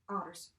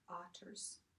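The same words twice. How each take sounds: First: The middle consonant sounds like a D. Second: The middle consonant is a clear T. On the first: The speaker calls it wrong. "we don't want to pronounce it otters, like odd, like O D D" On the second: The speaker calls it right. "Make sure you're pronouncing um, those T's"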